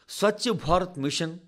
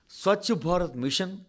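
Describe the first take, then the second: No difference in how they are said.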